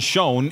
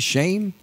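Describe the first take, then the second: First: The surname does not sound like 'Shane'. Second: The surname sounds like 'Shane'. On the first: This is how the broadcasters say the name. "if we're saying that right, I know that's what they're saying on TSN" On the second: This is how the speaker thinks the name should be said. "Wouldn't it be Shane?"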